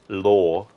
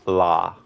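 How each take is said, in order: First: The vowel is a rounded 'aw' sound. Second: The vowel is an open 'ah' sound. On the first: The speaker calls it wrong. "instead of going law" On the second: The speaker calls it right. "imagine the name Kara"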